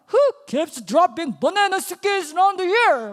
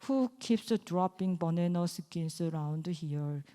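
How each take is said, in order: First: It is read with lively, fun expression. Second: It is read flatly, without expression.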